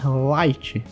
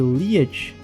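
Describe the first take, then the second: First: The syllable is said as one word, light. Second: The syllable is said as two vowels, lee-et. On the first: It follows the Japanese original name. "passa a ser light" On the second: It follows the British reading of the letters. "a pronúncia de liet"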